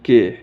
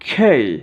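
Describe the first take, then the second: First: A plain k followed by a plain 'e'. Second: A breathy k followed by a gliding 'ei'. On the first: The speaker calls it wrong. "এটা আমরা সাধারণত উচ্চারণ করি কে" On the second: The speaker calls it right. "এটা সঠিক উচ্চারণ হবে খেই"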